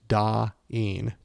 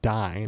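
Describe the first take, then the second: First: Two vowels are heard, 'ah' then 'ee'. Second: The vowel sounds like 'eye' in dine. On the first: The speaker calls it right. "It's Da-een, two vowels" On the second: The speaker calls it wrong. "and it's not Dine"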